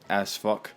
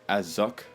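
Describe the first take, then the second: First: The name sounds like 'ass-uck' with a short vowel. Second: The name sounds like 'ah-zook' with a plain u. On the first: The speaker calls it right. "I just like to correctly pronounce it" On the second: The speaker calls it wrong. "it's not actually pronounced Azuk due to the umlaut with the U"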